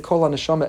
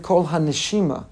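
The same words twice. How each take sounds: First: "Kol haneshama" with an "a" in "haneshama"; the usual reading. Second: "Kol haneshima" with an "ee" in "haneshima"; the midrashic reading. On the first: Teacher giving the reading to set aside: "Kol haneshama" with an "a". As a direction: say "haneshama" as "soul", the common reading. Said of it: "don't read it Kol haneshama". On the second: Teacher giving the preferred reading: "Kol haneshima" with an "ee". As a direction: say "haneshima", meaning "breath", with a clear "ee" sound. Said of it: "Read it Kol haneshima". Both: Shown as a demonstration.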